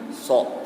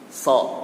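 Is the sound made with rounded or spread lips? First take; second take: rounded; spread. First: The sound is made with rounded, pushed-out lips. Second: The sound is made with lips spread wide. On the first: The speaker calls it wrong. "tidak boleh dimonyongkan bibirnya... Biasanya kan seperti itu" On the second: The speaker calls it right. "yang benar itu harus dilebarkan bibirnya"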